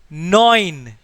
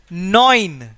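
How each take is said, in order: No difference in how they are said.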